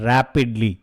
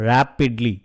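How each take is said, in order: Both takes have the same delivery.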